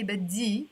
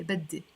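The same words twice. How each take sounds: First: بدي ending in an ee sound; final vowel of بدي as long ee; non-Lebanese ending. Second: بدي ending in an open e; final vowel of بدي as e, not ee; Lebanese ending. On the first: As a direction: say بدي as bad-dee. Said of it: "that's not the way we pronounce it in Lebanese". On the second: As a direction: say بدي as bad-de. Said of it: "We pronounce it E". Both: Shown as a demonstration.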